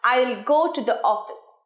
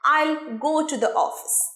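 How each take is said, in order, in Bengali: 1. 'I will' দুটি আলাদা শব্দ হিসেবে বলা হয়। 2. 'I will' একটি সিলেবলে জোড়া লাগিয়ে বলা হয়।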